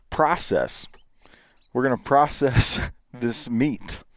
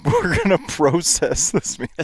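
First: "process" with an ah, like "prah-sess"; American pronunciation. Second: "process" as "pro-sess", pitched higher; Canadian pronunciation. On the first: American setting up the contrast, "process" with ah. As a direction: say "process" the American way, open first vowel. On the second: American repeating the sentence Canadian-style, "process" with long O. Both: Shown as a demonstration. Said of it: "So it's another O".

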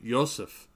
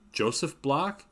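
First: Greta says "Joseph" with a Y sound, yo-sef; German Joseph. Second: "Joseph" with an English hard J, jo-sef, rising higher. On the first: Greta names her friend, "Joseph" said German-style with a Y. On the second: Darby checking the name, "Joseph" with a hard English J. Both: A narrator's reading. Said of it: "used the hard J sound".

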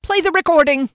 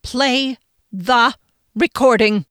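First: High, loud, abrupt order; bold demand. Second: "Play the recording" broken by pauses, each word weighted; firm word-by-word order. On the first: Friend defying his boss, bold demand. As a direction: fire off the order in one breath. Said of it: "Taken aback at this effrontery". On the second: Friend standing tall over boss, "Play the recording" word by word. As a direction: spell out "Play the recording" slowly and firmly. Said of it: "Phoenix stood straight and tall". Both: A narrator's reading.

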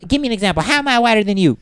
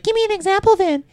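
First: Girlfriend impression. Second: Very high, squeaky mock of his girlfriend; girlfriend's voice, mocked. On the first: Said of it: "that was a bad impression". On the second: Retelling an argument, mimics girlfriend in a squeaky voice. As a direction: pitch way up, mimicking her indignant demand. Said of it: "she's like".

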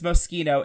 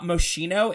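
First: "Moschino" with a hard "k", "mo-SKEE-no"; right pronunciation. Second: "Moschino" as mo-shee-no; wrong pronunciation. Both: Shown as a demonstration. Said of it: "two things that I will die on".

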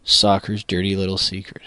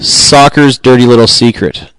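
First: Quiet, distant take off the mic; softly, as if leaning away from the mic; too far from the mic. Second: Fuller, louder take close to the mic; right on the mic. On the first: Opening the segment with a hushed read set too far off. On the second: Host restarting the segment close in on the mic, fuller. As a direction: punch it out now that you're close. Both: Shown as a demonstration. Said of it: "Is the mic not close enough".

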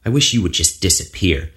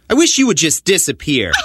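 First: Said in the usual way. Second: Angry. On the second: Acted. Repeated louder, harder.

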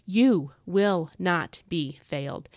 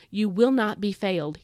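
First: You will not be failed said slowly, every word weighted; slow down and land each word; slow emphatic repeat. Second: Will lifted and pressed, at an ordinary pace; a firm promise with weight on will; stress on will. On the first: Repeating the promise slowly to listeners, each word weighted. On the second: Telling listeners they won't be failed, will stressed. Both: Shown as a demonstration. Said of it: "emphasize that word will".

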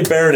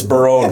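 First: Said in the usual way. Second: Baron said as "buh-ROHN"; altered Baron. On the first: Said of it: "It's not actually Baron". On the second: Shown as a demonstration. Correcting co-hosts on the name, Baron said "buh-ROHN". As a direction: stress the second syllable of Baron, with a long "oh". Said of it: "It's not actually Baron, it's".

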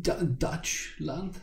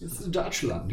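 First: "Dutch land" very slowly, as two words, tentative rise; pronunciation check. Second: "Dutch land" run together, falling at the end; pronunciation confirmed. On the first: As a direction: sound out "Dutch land" haltingly, questioning. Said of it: "am I pronouncing that correctly". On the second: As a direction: say "Dutch land" at normal pace, settled. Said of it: "Germans say it's Dutch land". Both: Shown as a demonstration.

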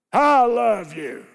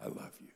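First: "I love you" shouted slow and hard; harsh loud. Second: "I love you" breathed tenderly, no voice; whispered. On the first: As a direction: bark "I love you" coldly. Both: Shown as a demonstration. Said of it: "Any difference in that?".

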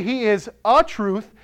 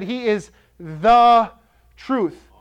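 First: "a" leaned on in "he is a truth"; stress on a. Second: Slow, with "the" drawn out and held before "truth"; stress on THE. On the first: Preacher to congregation, weighing "a" against "the". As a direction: hit the little word "a" to mock the wrong version. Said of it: "He didn't say he is a truth". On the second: Preacher to congregation, insisting it is "the" truth, slow and emphatic. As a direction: land hard on "the" and pause before "truth". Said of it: "That's a declarative statement". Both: Shown as a demonstration.

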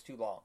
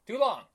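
First: Said in the usual way. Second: TOO LONG higher and louder; emphatic repeat. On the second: Real, not acted. Host repeating his complaint, "Too long" thrown out high and loud. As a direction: punch out "Too long" as an exclamation.

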